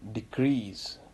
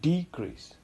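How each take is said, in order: First: The stress is on the second syllable. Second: The stress is on the first syllable. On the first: It is used as a verb. "Decrease as a verb" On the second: It is used as a noun. "decrease as a noun"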